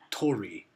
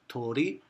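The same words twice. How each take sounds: First: The middle consonant is a full English R. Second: The middle consonant sounds between L, D and R. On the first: The speaker calls it wrong. "they never outright use an R like tori" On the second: The speaker calls it right. "sometimes sounds like an L, sometimes a D, and a little bit like an R"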